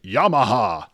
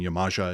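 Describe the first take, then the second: First: The middle consonant is an h sound. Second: The middle consonant is a clear j sound. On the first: The speaker calls it wrong. "as opposed to it being like Yamaha Station" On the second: The speaker calls it right. "the J in Yamaja is actually pronounced"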